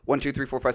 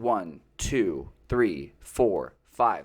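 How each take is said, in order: First: The numbers are counted quickly. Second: The numbers are counted slowly.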